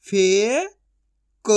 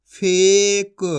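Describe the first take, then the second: First: फे rising long, pause, क; syllable by syllable. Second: Said in the usual way. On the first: Shown as a demonstration. Teacher sounding out for learners, syllable by syllable. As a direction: split फेक into two drawn-out sounds. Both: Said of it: "एक एक अक्षर का उच्चारण".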